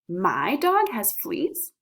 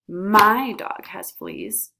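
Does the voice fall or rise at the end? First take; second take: rise; fall. First: The voice rises at the end. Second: The voice falls at the end. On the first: It is a question. "our questioning emphasis, which goes up at the end" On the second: It is a statement. "our statement emphasis"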